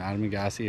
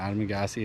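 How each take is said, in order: First: The middle syllables sound like 'maga'. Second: The same.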